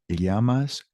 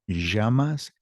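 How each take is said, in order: No difference in how they are said.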